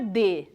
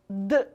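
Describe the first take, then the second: First: It is the letter name with a vowel. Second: It is a bare consonant without a vowel. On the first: It names the letter of the alphabet. The speaker calls it wrong. "esse som não é D. D é o nome da letra" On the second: It is the sound the letter stands for. The speaker calls it right. "Esse som é D"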